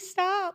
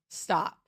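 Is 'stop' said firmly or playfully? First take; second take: playfully; firmly. First: It is said playfully with giggling. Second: It is said firmly and seriously. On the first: "tone changes a lot" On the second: "Two completely different meanings, same word"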